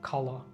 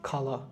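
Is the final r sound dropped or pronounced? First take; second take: dropped; dropped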